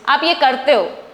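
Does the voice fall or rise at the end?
fall. It is said as a statement, falling.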